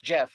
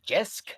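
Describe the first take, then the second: First: The name ends with an 'f' sound. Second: The name ends with an 'sk' sound. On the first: The speaker calls it right. "it's just Jeff" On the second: The speaker calls it wrong. "my wife still comes up to me and just like Jesk"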